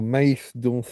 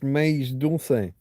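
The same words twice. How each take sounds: First: The c in dulce sounds like th. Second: The c in dulce sounds like s.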